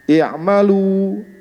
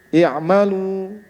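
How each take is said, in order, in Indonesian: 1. Vokal akhir dibulatkan dengan bibir dimajukan ke depan. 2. Vokal akhir dilebarkan dengan bibir tersenyum. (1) "ini adalah uh, yang benar" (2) "adapun yang taklil adalah"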